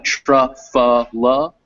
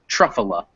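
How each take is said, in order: First: "truffula" sounded out slowly as spelled, syllable by syllable, rising; spelling pronunciation. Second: "truffula" run together as TRUFF-uh-luh, falling; natural pronunciation. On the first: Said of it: "So it gets spelled like". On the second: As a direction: say "truffula" naturally, middle syllable unstressed. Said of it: "I say it truffula". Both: Shown as a demonstration.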